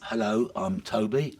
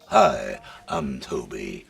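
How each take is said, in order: First: It is said in his normal voice. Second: It is said in a put-on voice.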